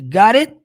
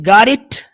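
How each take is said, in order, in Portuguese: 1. O T final quase não se ouve. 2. O T final é claramente liberado. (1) "Vai ser got it" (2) "Não vai ter got it"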